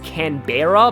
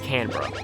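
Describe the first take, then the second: First: Every vowel is pronounced, as the word is spelled. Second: One vowel is dropped, so the word sounds shorter. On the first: The speaker calls it wrong. "non-Australians always pronounce it as Canberra because that's how it's spelled" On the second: The speaker calls it right. "one of the e's is like silent"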